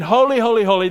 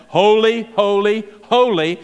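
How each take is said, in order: First: Said in the usual way. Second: Ringing proclamation. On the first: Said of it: "when they're saying". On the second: Acted. Seraphim crying holy three times, loud. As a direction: call out each holy like a proclamation. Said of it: "twice, but three times".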